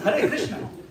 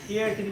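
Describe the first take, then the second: First: The words are pronounced clearly with every sound distinct. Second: The words are slurred and the sounds blur together. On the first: The speaker calls it right. "No, it's Hare Krishna" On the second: The speaker calls it wrong. "just slurring, you can hear all kinds of weird stuff coming out instead of Hare Krishna"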